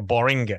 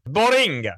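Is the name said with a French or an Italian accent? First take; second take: French; Italian. First: The name is said with a French accent. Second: The name is said with an Italian accent. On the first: "if we give it a little bit of a French flair, like a Boring" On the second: "or Italian"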